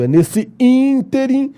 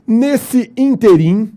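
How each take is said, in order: First: "ínterim" stressed on ín, higher; correct pronunciation, slow. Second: "ínterim" read slow and high as the error; wrong pronunciation. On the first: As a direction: stress "ínterim" on its first syllable. ("ínterim" correto, devagar, tônica em ín) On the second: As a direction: say "ínterim" as written in the exercise. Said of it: "está errado". (leitura errada de "ínterim", devagar) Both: Shown as a demonstration.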